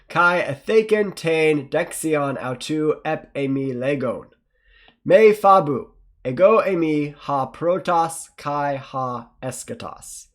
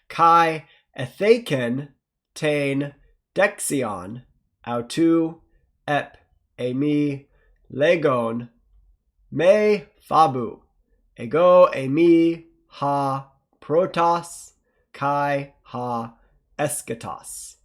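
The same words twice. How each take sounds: First: It is read faster. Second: It is read slowly.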